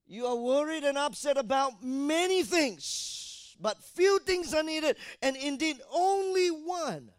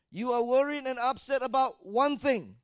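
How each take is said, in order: First: "many" stressed, loud, high and slow; slow down and hit "many"; correct version. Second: "one" stressed in "about one thing", loud and high; wrong version. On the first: Preacher reads the right scripture to the congregation, stressing "many". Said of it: "Read the scripture". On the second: Preacher quotes the wrong version for the congregation, stressing "one". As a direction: lean on "one" as the wrong word. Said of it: "No, you didn't hear properly". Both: Shown as a demonstration.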